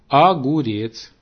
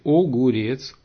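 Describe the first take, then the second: First: The first vowel sounds like a. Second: The first vowel sounds like o. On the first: This is how nobles and their imitators say it. "часто заменяют «о» на «а» в начале и в середине слов. Например, говорят" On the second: This is the form it replaces. "на месте"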